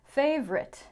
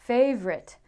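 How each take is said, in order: The two takes are said the same way.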